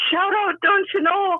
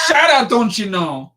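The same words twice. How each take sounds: First: High, sing-out Wisconsin shout-out; high-pitched Wisconsin lilt; Wisconsin accent. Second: Put-on copying a Wisconsin accent at normal pitch; improved Wisconsin accent. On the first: Shown as a demonstration. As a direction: call it out brightly as a Wisconsinite. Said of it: "this is a Wisconsin accent". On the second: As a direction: echo the Wisconsinite, casually. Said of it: "That was better".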